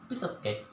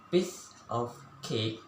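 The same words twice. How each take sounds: First: The words are run together smoothly and naturally. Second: Each word is said separately, one by one. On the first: "speak all word together simultaneously and in a naturally way" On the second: "like read word one by one"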